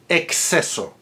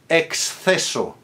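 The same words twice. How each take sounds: First: The X is said as K followed by S. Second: The X is said as K followed by TH.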